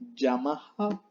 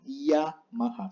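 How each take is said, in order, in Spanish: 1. El sonido inicial de la y es duro y fuerte. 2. El sonido inicial de la y es suave y ligero. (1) "No se lee Yamaha" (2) "sino Yamaha, suave"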